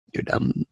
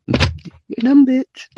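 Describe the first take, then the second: First: Quiet put-down. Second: "You're dumb" jumped much higher, sing-song and rising; high, teasing "You're dumb, bitch"; high mocking insult. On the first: Acted. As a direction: say "You're dumb" soft and under the breath. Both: Insulting the girl twice.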